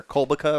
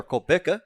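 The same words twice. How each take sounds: First: "Kolbica" with the stress up front, KOL-buh-kuh; "Kolbica" run together, first syllable strongest; first candidate pronunciation. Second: "Kolbica" stressed in the middle, kol-BIK-uh; "Kolbica" with a clear short i in a stressed BIK; second candidate pronunciation. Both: Shown as a demonstration. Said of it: "check the actual pronunciation".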